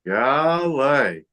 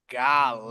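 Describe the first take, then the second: First: Gale drawn out as gah-lay; Gale, two syllables rising then falling; Gale, stretched and higher. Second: Gale said as one syllable, gahl; Gale, short with a low fall; Gale, clipped to one syllable. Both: Shown as a demonstration. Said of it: "make 'em say it".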